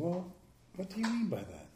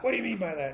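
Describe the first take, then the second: First: It is said in a gentle, curious tone. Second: It is said in a sharp, accusing tone.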